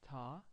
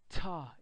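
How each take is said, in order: First: The t is released calmly with little air. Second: The t is released with a strong puff of air. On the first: "calm and relaxed in French" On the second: "Ta in English, as much air as I want"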